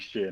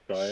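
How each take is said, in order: First: The ending is said with a short 'ee' vowel. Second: The ending is said with a long 'eye' vowel. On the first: It sounds British. The speaker calls it right. "it has to be sheer" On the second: It does not sound British. The speaker calls it wrong. "not shire"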